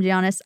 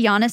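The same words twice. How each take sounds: First: Giannis said as jee-AH-niss; hard J and extra syllable opening Giannis; alternate pronunciation. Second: Giannis said as YAH-niss; alternate pronunciation. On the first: Podcaster showing the other version of the name, Giannis with a J sound. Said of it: "sometimes they call him". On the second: Podcaster showing how some say the name, Giannis with a Y sound. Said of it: "sometimes they say". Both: Shown as a demonstration.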